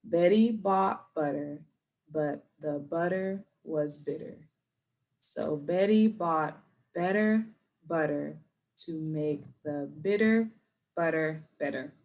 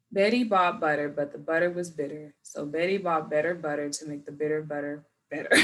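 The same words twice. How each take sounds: First: Slow, careful practice read; slow practice for students; slow again. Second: Quicker, smooth tongue twister; smooth read. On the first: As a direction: take it slowly with pauses. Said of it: "let's try it again". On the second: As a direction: read it straight through. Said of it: "I'm just gonna read". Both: Shown as a demonstration.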